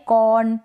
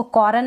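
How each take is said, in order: First: कॉर्न said as kon, no r at all; कॉर्न with the r dropped, the correct way; silent r. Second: कॉर्न with the r sounded, kor-un; कॉर्न said the wrong way, r rolled in the middle. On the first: Teacher gives students the correct reading, r silent. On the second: Teacher shows students the wrong reading, r sounded. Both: Shown as a demonstration. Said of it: "इसको कॉर्न ना पढ़े".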